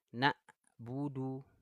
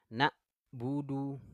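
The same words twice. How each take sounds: The two takes are said the same way.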